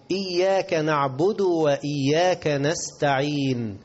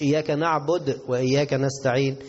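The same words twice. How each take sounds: First: Slow recitation, "نعبد" ending in du; correct damma. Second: "نعبد" with vowelless dal, no stretching; hurried mistake. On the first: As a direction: draw out "إياك" and voice "نعبد" with damma. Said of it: "ده المضمومة". (ترتيل «نعبد» بضم الدال) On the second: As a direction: say "نعبد" ending on a bare d. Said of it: "مش". («نعبد» بتسكين الدال خطأً) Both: Shown as a demonstration.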